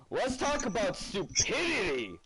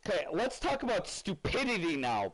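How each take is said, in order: First: Higher, slower, punchy proclamation; emphatic announcement. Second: Said in the usual way. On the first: Real, not acted. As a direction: declare it like a big topic. Repeats topic line louder, emphatic.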